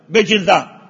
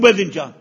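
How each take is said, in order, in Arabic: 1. يأتي صوت الجيم قبل صوت الباء. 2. يأتي صوت الباء قبل صوت الجيم. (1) "يقدمون الجين على الباء" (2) "مو باذنجان"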